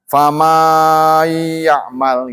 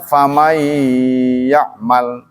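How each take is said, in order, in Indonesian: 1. Satu vokal dibaca panjang sekali. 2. Semua vokal dibaca dengan panjang pendek yang sama. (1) "Itu berarti memanjangkan"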